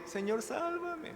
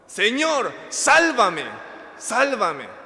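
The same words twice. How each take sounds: First: Tiny high-pitched soft plea, drawn out; feeble, slow squeak of a prayer; meek, not shouted. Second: Loud, high shouted plea for rescue; crying out. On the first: Preacher mimicking how Peter did not cry out, meek high plea. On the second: Preacher showing how Peter cried to the Lord, shouted plea. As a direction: yell it out like a drowning man. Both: Shown as a demonstration. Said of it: "Gritó, no dijo".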